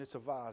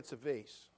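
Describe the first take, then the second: First: Vase is said in a Boston accent. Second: Vase is said in a general American accent.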